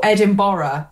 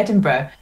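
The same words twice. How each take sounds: First: "Edinburgh" ending in a full "burra", as tourists say it; tourists' pronunciation. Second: Said in the usual way. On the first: Shown as a demonstration. Resident showing how lots of tourists say "Edinburgh", as Edin-borra. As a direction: say "Edinburgh" like Edin-borra, every syllable sounded. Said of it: "as lots of tourists, uh, call it". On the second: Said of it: "or Edinburgh, as lots of tourists".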